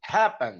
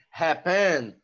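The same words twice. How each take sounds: First: "happen" stressed as HAP-pen; stress on first syllable. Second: "happen" drawn out as hap-PEN; stress on second syllable. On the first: Teacher confirming the real pronunciation for students, "happen" stressed on the first syllable. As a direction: punch the first syllable of "happen", letting "pen" fall away. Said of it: "a sílaba tônica é a primeira". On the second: Teacher posing a hypothetical pronunciation to students, "happen" stressed on the last syllable. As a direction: say "happen" slowly, weight on the final "pen". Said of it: "Se não fosse assim".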